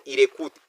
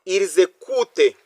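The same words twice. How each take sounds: First: The s is not linked to the vowel. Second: The s links to the vowel as a z. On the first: The speaker calls it wrong. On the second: The speaker calls it right.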